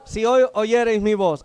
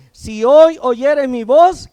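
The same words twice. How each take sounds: First: Said in the usual way. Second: Loud, slow, each word driven home; emphatic scripture. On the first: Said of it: "¿qué dice?". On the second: Shown as a demonstration. Preacher calling the young to hear, loud and slow. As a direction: preach it out to the whole room. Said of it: "versículo siete".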